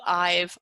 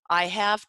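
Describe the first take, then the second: First: It is said as one contracted syllable. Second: It is said as two full words.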